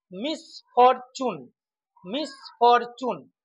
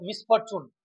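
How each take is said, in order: First: মিসফরচুন in three separated beats; broken into syllables. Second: Said in the usual way. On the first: Shown as a demonstration. Teacher demonstrating trisyllables, মিসফরচুন split in three. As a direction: say মিস, ফর, চুন with gaps. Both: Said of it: "তিনটি syllable থাকে".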